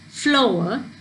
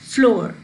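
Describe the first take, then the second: First: The vowel glides through three sounds in one syllable. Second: The vowel is one plain sound without gliding. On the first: The speaker calls it right. "You say it as flower, where there's our sound" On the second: The speaker calls it wrong. "You don't say it as floor"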